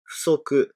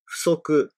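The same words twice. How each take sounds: Both takes have the same delivery.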